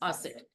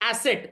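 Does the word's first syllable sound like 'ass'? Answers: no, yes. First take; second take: no; yes. First: The first syllable does not sound like 'ass'. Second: The first syllable sounds like 'ass'. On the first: The speaker calls it right. "It is एसेट" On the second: The speaker calls it wrong. "It is not एसेट, एस नहीं है"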